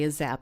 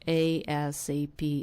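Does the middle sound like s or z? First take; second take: z; s. First: It sounds like the two words a zap. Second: It is said with an s sound. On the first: The speaker calls it wrong. "I tend to just say it like that" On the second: The speaker calls it right. "It's ASAP"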